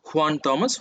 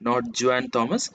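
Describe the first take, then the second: First: The name begins with an H sound. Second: The name begins with a J sound. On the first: The speaker calls it right. "we come across one such name as Juana" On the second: The speaker calls it wrong.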